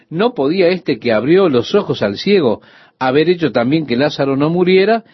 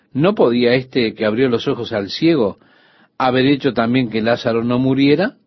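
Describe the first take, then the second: First: Mock challenging question. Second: Said in the usual way. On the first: Preacher voicing the doubting crowd, pointed question. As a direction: ask it like a skeptic in the crowd. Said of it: "Esa era la pregunta". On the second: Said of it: "Algunos de ellos dijeron".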